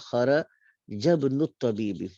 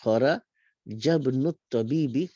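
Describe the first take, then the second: Both takes have the same delivery.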